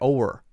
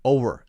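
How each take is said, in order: First: The middle consonant is soft and sounds like W. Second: The same.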